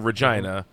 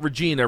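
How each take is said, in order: First: Regina is said the way locals say it. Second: Regina is said the way locals do not say it. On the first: The speaker calls it right. "They call it the city that rhymes with fun" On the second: The speaker calls it wrong. "they pronounce it not Regina"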